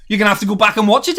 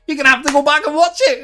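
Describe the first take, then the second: First: Said in the usual way. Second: Much higher, quick mock voice; silly high voice. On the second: Shown as a demonstration. Streamer teasing Derek again, high goofy put-on voice. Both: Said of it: "repeats in another voice".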